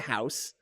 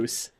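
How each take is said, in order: First: The vowel is an 'ow' sound. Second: The vowel is a long 'oo' sound. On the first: It is how the speaker really talks. The speaker calls it right. "I say house" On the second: It mocks a stereotyped Canadian accent. The speaker calls it wrong. "Nobody, like Canadians, don't say hoose"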